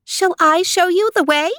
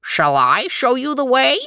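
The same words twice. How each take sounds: First: High-pitched little mouse voice. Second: Higher-pitched frog voice, swooping up. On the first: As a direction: pipe up much higher, like a tiny mouse. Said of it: "The mouse said". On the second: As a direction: offer help as a frog, rising to a high finish. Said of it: "The frog said". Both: A narrator's reading.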